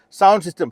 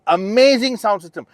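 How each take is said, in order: First: Said in the usual way. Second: "amazing" lifted high and loud, the rest falling away; "amazing" pushed up in pitch and volume, then "sound system" drops; stress on amazing. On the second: Shown as a demonstration. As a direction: lean hard into "amazing" to sell it. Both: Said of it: "I gotta emphasize the word amazing".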